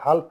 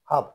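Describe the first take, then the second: First: An L sound is pronounced before the F. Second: No L sound is pronounced before the F. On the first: The speaker calls it wrong. "এটা হাল্প হবে না" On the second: The speaker calls it right. "এটা হাফ উচ্চারিত হয়েছে"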